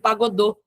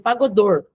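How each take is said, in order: First: The word ends on a vowel, without r. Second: The word ends with an audible r sound. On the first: This is the form used in candomblé. "Não é como no candomblé que é chamado de pagodô" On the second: This is the local form in jaré. "Por conta do sotaque da Chapada Diamantina, fica pagodor"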